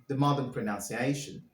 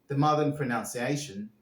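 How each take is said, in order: No difference in how they are said.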